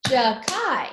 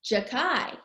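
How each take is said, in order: First: JAKAI in two loud beats, JA and KAI; syllable by syllable. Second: Said in the usual way. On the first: Shown as a demonstration. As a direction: clap out both parts of JAKAI, loudly. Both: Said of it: "He's got two syllables".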